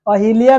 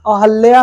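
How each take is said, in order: First: अहिल्या with i, 'a-hi-liya'; wrong pronunciation. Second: अहल्या with 'hal', no i; correct pronunciation. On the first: Teacher rejecting the faulty word, said with 'hi'. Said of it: "अहिल्या नहीं होता है". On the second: Teacher giving the right word, said with 'hal'. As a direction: say 'a-hal-ya' for अहल्या. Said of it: "अहल्या होता है". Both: Shown as a demonstration.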